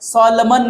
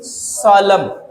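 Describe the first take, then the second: First: The final n sound is pronounced. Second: The final n sound is silent. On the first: The speaker calls it wrong. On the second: The speaker calls it right.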